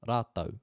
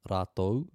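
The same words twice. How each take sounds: First: The word ends with an 'au' sound. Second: The word ends with an 'ou' sound. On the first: "some iwi pronounce those words with the last two letters as a and u" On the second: "where the last two letters of those words are o and u"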